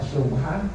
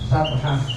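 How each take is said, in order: First: The first vowel is an 'u' sound. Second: The first vowel is an 'a' sound. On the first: "Wa subhah bidomil mim" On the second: "Wa fathis sin"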